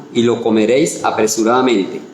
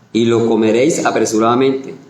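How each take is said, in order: No difference in how they are said.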